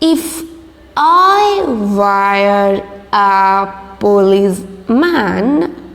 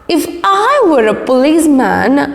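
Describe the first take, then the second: First: The line is read slowly. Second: The line is read quickly. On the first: "I'm going to read in slow process" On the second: "So now it's going to be little fast"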